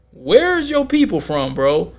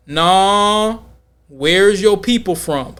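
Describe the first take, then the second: First: Drawn-out "Where's your people from", pitched up, suspicious; probing question. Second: Slow, pressing repeat at normal pitch; drawn-out "Nah", then press the question slowly; insistent probing. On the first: Quizzing a man about his origins, mock suspicious. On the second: Rejecting his New York answer, mock insistent. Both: Retold or imitated.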